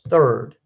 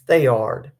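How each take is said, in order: First: The name sounds like 'third'. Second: The name sounds like 'thay-ard'. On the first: This is how most other people say it. "Most people pronounce it as third" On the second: This is how the locals say it. "We pronounce it Thayard"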